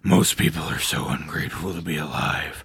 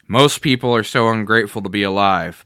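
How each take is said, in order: First: It is read in a put-on villain voice. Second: It is read in the reader's ordinary voice.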